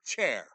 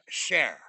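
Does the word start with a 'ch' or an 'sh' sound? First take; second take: ch; sh. First: The word starts with a 'ch' sound. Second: The word starts with an 'sh' sound. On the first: The speaker calls it right. "They cannot say the word chair" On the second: The speaker calls it wrong. "It's share"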